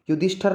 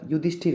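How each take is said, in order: First: युधिष्ठर with "a" before the final r; wrong pronunciation. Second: युधिष्ठिर with short "i" before final r; correct pronunciation. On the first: Teacher shows students a common error, mispronounced. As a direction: say युधिष्ठर ending in "-thar". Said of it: "युधिष्ठर नहीं होता". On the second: Teacher corrects the word for students, careful pronunciation. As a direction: say युधिष्ठिर ending in "-thir". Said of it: "युधिष्ठिर होता है". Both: Shown as a demonstration.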